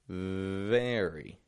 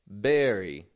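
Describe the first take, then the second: First: The word begins with a V sound. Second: The word begins with a B sound. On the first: The speaker calls it right. "Only the bottom lip is lightly touching the top teeth" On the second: The speaker calls it wrong. "I'm not giving it a B"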